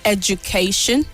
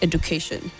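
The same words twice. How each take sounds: First: The middle d sounds like a j. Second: The middle d sounds like a plain d. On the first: The speaker calls it right. "The D sounds J" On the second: The speaker calls it wrong. "not education"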